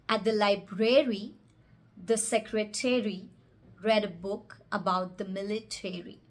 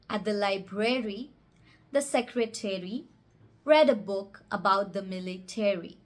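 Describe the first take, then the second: First: The -ary endings sound like the word airy. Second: The -ary endings sound like the word airy.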